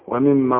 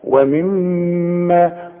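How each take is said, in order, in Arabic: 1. الميم المشددة تُنطق قصيرة بلا غنّة. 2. الميم المشددة تُمدّ مع رنين أنفي. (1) "ما تقولش ومما رزقناهم زي ما بنسمع ناس كتير" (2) "كل من في القرآن ما دام عليها الشدة غنها"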